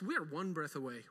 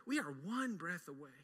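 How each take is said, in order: First: Soft repeat. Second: Even softer, near a hush; hushed echo. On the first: Preacher softly warning the congregation, hushed. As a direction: drop to a hushed, softer tone. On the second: Preacher repeating the warning, softer still. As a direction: let the words hang, softly. Repeated line dropped soft. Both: Acted.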